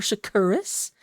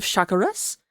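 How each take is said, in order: First: "Shakuras" with stress on the second syllable; official pronunciation. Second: "Shakuras" with stress on the first syllable; preferred pronunciation. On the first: Caster offering the other reading, second-syllable stress on "Shakuras". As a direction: say sha-KUR-as for "Shakuras". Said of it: "It's actually Shakuras". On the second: Caster naming the team his favorite way, first-syllable stress on "Shakuras". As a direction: say SHAK-uras for "Shakuras". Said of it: "but I like saying Shakuras". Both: Shown as a demonstration.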